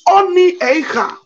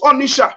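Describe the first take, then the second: First: The name is split into two parts. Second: The name is run together as one word. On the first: This is the original native form of the name. The speaker calls it right. "It is Oni Eicha" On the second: This is the form outsiders used and wrote down. The speaker calls it wrong. "they call it Onisha"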